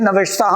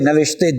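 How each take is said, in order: First: The word ends with an open 'a' vowel. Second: The word ends with an 'e' vowel. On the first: This is the Tajik and Dari pronunciation. "ये ताजिकी और दरी में अलिफ का देती है तलफ़ुज़" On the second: This is the modern Iranian Persian pronunciation. "Persian में इसका तलफ़ुज़ करते हैं बड़ी ये के बराबर"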